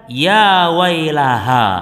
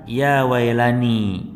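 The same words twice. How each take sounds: First: "Ya wailaha" drawn out slowly, a mild mock wail; wrong wording demo. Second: "Ya wailani" said slowly and a little lower; corrected wording. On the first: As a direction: stretch "Ya wailaha" slowly like a corpse crying out. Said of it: "dia akan berteriak". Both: Shown as a demonstration.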